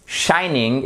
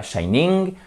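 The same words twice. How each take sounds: First: "shining" lent, première syllabe appuyée; étire le SHI de "shining"; prononciation juste. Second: "shining" avec l'appui sur la fin, qui monte; prononciation fautive. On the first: ("shining" à l'anglaise, modèle articulé) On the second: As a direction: imite l'erreur, appuie sur le NING de "shining". ("shining" à la française, shaï-NING) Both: Shown as a demonstration. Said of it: "et pas shining".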